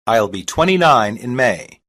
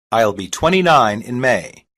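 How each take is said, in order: Both takes have the same delivery.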